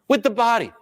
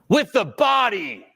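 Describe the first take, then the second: First: The voice is relaxed, low and grounded. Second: The voice is pushed and forced at the listener.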